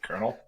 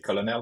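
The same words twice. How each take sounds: First: The word is pronounced like 'kernel'. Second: The word is pronounced as it is spelled. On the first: The speaker calls it right. "you say Colonel" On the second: The speaker calls it wrong. "you don't say Colonel"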